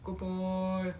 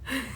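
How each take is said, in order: First: It is said in a very low voice. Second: It is said in a very high voice.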